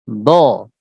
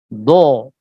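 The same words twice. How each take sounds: First: The vowel is said without rounded lips. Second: The vowel is said with rounded, pushed-out lips. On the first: The speaker calls it right. "Apakah mencucu? Do. Tidak" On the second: The speaker calls it wrong. "Kalau mencucu"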